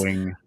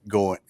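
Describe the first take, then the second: First: The final g sound is clearly pronounced. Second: The final g sound is dropped. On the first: This is how British people say it. "if you listen to a, a British person, they are going" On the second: This is how Americans say it. "we sort of roll that off"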